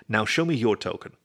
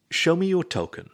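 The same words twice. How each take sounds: First: Said in the usual way. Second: Higher, insistent demand. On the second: A narrator's reading. Raccoon holds the disc behind his back, demanding. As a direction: press the demand, pitched up. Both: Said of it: "he demanded again".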